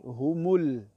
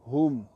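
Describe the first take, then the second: First: The word ends with an added u vowel. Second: The word ends on a bare consonant. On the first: Another word follows immediately. "lorsqu'il y a un autre mot qui suit, on dit humul" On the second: Nothing follows and the reader stops here. "lorsqu'on s'arrête, on s'arrête toujours sur un soukoun"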